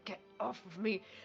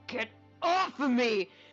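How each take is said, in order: First: It is muttered quietly under the breath. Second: It is said out loud in full voice.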